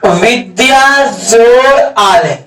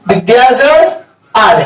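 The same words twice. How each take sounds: First: Each word drawn out slowly for the class; slow dictation. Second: Said in the usual way. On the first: Shown as a demonstration. Teacher slowly dictating the example to students. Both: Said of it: "जैसे कहेगा".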